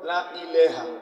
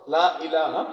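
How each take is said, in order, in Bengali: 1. ilaha-এর দ্বিতীয় স্বরবর্ণটি 'e' ধ্বনির মতো শোনায়। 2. ilaha-এর দ্বিতীয় স্বরবর্ণটি 'a' ধ্বনির মতো শোনায়। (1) "কেউ কেউ ভরতে সময় কয়" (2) "কত সহজ।"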